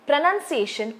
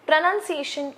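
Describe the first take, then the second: Both takes have the same delivery.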